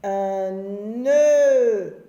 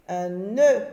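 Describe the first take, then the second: First: Louder, stretched "nœud" with the vowel held long; drawn-out nœud. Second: Said in the usual way. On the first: Shown as a demonstration. Teacher to pupils at home, modelling "nœud" slowly and loudly. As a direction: hold the "eu" of "nœud" for the class. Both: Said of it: "j'entends pas O".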